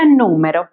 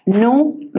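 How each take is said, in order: First: Said in the usual way. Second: "Número" split as nú, me, ro, with pauses; syllable by syllable. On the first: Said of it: "la podemos separar en sílabas". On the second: Shown as a demonstration. Teacher showing how to separate the word, "Número" syllable by syllable. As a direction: set out "Número" in three detached syllables. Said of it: "separar en sílabas de la siguiente manera".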